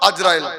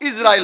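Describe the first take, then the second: First: The name begins with an 'a' vowel. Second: The name begins with an 'i' vowel. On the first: The speaker calls it wrong. "Not আজরাইল" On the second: The speaker calls it right. "But ইসরাইল হবে কথাটা"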